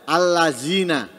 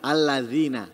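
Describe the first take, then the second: First: The middle consonant is a z sound. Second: The middle consonant is a soft th sound. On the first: The speaker calls it wrong. "Atau diganti za" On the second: The speaker calls it right. "mestinya kan alladzina"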